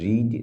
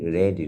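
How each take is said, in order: First: The vowel is a long ee sound. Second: The vowel is a short e sound. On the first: It is the present tense. "रीड का past tense" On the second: It is the past tense. "रेड पढ़ते हैं और लिखते रीड"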